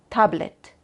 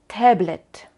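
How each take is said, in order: First: The first vowel is a plain Spanish 'a'. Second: The first vowel is close to the English 'a'. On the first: This is how people say it in Mexico. "Dicen de verdad A" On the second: This is how it is said in Germany. "decimos fan o tablet"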